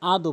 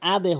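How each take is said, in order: First: The bounced d ends with an o-like sound. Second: The bounced d ends with an e-like sound. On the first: The speaker calls it wrong. "অধিকাংশ লোক এখানে ভুল করে আদো বলে" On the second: The speaker calls it right. "এখানে আদে হবে"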